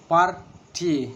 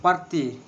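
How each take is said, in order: First: Party drawn out as par-ty, first beat stronger; slower, syllables apart; stressed syllable by syllable. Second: Said in the usual way. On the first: Shown as a demonstration. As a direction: spell party out in beats. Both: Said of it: "And the two syllables".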